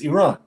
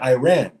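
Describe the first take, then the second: First: It has the native foreign-name intonation. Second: It has an anglicized intonation. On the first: The speaker calls it right. "but it's Iran" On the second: The speaker calls it wrong. "people choose to say Iran"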